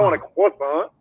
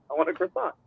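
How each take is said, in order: First: Croissant mimicked as "kwah-SAHN"; higher-pitched, reject the Frenchified croissant, no R; mocked French pronunciation. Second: Croissant with a clear R, "kris-SAHNT"; soft, higher-pitched croissant with the R put back; Americanized pronunciation. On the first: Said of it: "I mean, croissant". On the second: Retold or imitated. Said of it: "I said croissant".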